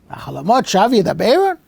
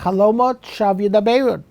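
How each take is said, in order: First: It is said as a rhetorical question. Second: It is said as a plain statement.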